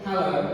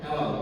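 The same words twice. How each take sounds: First: It is said in a British accent. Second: It is said in an American accent.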